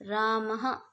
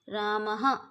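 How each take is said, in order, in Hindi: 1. शब्द के अंत में एक छोटी साँस वाली 'ह' की आवाज़ है। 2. शब्द के अंत में एक छोटी साँस वाली 'ह' की आवाज़ है।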